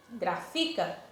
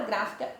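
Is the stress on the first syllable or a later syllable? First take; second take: later; first. First: The stress falls on a later syllable. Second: The stress falls on the first syllable. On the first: The speaker calls it wrong. "eu não estou pronunciando corretamente" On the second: The speaker calls it right. "eu pronunciei o gra, que está acentuado, como sílaba mais forte"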